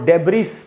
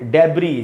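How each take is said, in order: First: The final s sound is pronounced. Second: The final s sound is left silent. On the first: The speaker calls it wrong. "डेब्रिस नहीं पढ़ के" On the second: The speaker calls it right. "ये एस silent है"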